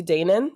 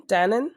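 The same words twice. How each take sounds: First: "Danan" said as DAY-nun; long-A pronunciation. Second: "Danan" said as DAN-un, questioning; short-A pronunciation. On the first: Host unsure of author's surname, "Danan" as DAY-nun. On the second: Host unsure of author's surname, "Danan" as DAN-un. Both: Shown as a demonstration. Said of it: "if it's Danan or Danan".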